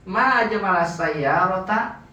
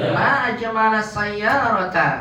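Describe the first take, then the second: First: SAYYARATA rising at the end like a question; wrong question intonation. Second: Long high MA, slow fall through SAYYARATA; exclamation intonation. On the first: Teacher shows students the wrong reading, questioning intonation. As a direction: ask it, ending upward on SAYYARATA. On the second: Teacher models admiring a car for students, exclamatory intonation. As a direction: marvel aloud, high and stretched. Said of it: "kemudian intonasinya". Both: Shown as a demonstration.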